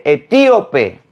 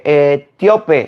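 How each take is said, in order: First: "etíope" slowly, stressed on TÍ: e-TÍ-o-pe; corrected pronunciation. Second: "etíope" misread as e-TIO-pe, í glided into the o; the rejected "etíope", tio as one syllable; wrong pronunciation. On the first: Priest correcting the lector, "etíope" with a stressed í, corrective. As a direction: punch the í in "etíope", its own syllable. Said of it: "se dice etíope". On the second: Priest quoting the lector's slip, "etíope" as e-TIO-pe, corrective. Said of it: "no se dice". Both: Retold or imitated.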